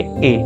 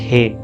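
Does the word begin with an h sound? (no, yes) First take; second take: no; yes. First: It is said as a bare vowel, no h. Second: It is said with an h sound first. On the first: The speaker calls it right. "आप प्रोनाउंस करोगे ए" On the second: The speaker calls it wrong. "Not हे"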